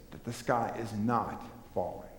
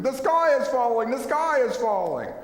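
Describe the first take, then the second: First: Calm correction. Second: High, loud panicky cry of doom; panicked scream. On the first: Acted. Calm answer to Chicken Little. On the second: Retold or imitated. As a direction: shriek it like Chicken Little in a panic. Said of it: "running around screaming".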